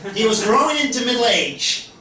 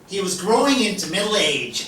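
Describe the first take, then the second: First: It is spoken with an American twang. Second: It is spoken in the speaker's usual accent.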